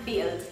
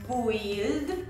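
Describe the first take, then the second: First: The vowel is pronounced with an i sound. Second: The vowel is pronounced with a u sound. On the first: The speaker calls it right. "hanem build, tehát egy I hangzás van az U helyett" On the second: The speaker calls it wrong. "nem úgy mondod, hogy build"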